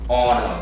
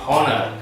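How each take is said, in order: First: The first H sound is silent. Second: The first H sound is pronounced. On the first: The speaker calls it right. "eliminate the H" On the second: The speaker calls it wrong. "it's not actually honor"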